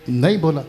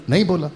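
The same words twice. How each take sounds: The two takes are said the same way.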